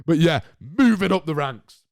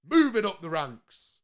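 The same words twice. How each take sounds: First: Said in the usual way. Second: Slow, drawn-out Moving up the ranks like a show host; dramatic announcement. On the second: Shown as a demonstration. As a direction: savour every word of Moving up the ranks, slowly. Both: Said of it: "repeats the phrase differently".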